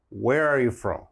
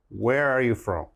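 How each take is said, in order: The two takes are said the same way.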